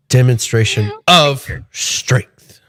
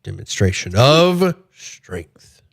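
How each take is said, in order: First: Slow, heavy stress on "of" in "Demonstration of strength". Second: "of" pushed out slowly and weighted in "Demonstration of strength"; stress on of. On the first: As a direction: lean hard on "of", drawn out. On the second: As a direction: rehearse it slowly, punching "of". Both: Acted. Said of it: "we should put the emphasis on of".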